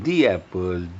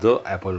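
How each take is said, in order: First: The word 'the' is said with a long 'ee'. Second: The word 'the' is said with a short 'uh'. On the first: The speaker calls it right. "दी Apple म्हणायचं" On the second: The speaker calls it wrong. "त्याचा उच्चार फक्त द नाही"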